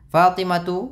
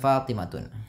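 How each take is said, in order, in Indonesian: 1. Nama itu berakhir pada vokal 'u' biasa. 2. Nama itu berakhir dengan bunyi 'n' tambahan. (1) "Fatimatu bukan" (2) "bukan Fatimatun"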